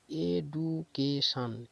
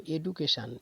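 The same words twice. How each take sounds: First: "education" very slowly as এ, ডু, কে, শান; four separate, drawn-out beats in "education": এ - ডু - কে - শান; broken into syllables. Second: Said in the usual way. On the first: Shown as a demonstration. ("Education" ধীরে ভেঙে ভেঙে চার ভাগে বলা) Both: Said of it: "ভেঙে ভেঙে করা আছে".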